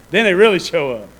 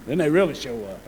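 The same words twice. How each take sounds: First: Louder, the word really punched; pushed harder on really; louder repeat. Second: Said in the usual way. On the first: Shown as a demonstration. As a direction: say it again with more force.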